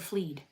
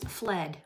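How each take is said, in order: First: The vowel is long, as in 'seed'. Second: The vowel is short, as in 'bed'. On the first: The speaker calls it wrong. "I said fleed" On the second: The speaker calls it right. "I can't even pronounce fled"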